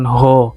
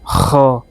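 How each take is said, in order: First: It starts with a soft, breathy h sound. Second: It starts with a harsh, raspy upper-throat sound. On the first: The speaker calls it wrong. "bukan ho" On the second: The speaker calls it right. "jadi di tenggorokan bagian atas ya teman-teman"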